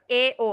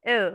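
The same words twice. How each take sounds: First: এ ও split into two separate sounds; wrong-way demo, এ then ও apart; separated vowels. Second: এও run together as one short sound; short and joined. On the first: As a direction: pronounce এ and ও each on its own. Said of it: "আলাদা করে না". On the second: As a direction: glide এ straight into ও, briefly. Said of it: "short করে একসাথে বলেন". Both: Shown as a demonstration.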